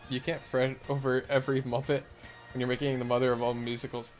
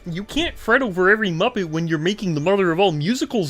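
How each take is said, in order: First: It is said in the speaker's ordinary voice. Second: It is said in a put-on frog puppet voice.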